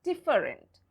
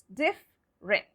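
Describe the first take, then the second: First: Different in three syllables, DIF-fer-ent; wrong spelling pronunciation. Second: Different slowly in two syllables, DIF-rent; correct silent-E pronunciation. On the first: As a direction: voice the middle E in different. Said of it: "It's not different". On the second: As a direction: leave out the middle E of different. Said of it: "It's different". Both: Shown as a demonstration.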